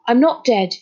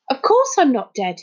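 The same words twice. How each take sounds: First: Firm, more composed statement; calmer. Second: Higher-pitched, affronted retort; indignant. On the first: Boy going on after his indignant outburst, calmer. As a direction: state it calmly but firmly. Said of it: "he went on more calmly". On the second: Boy answering whether he is a ghost, indignant. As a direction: protest it indignantly. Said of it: "he said indignantly". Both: A narrator's reading.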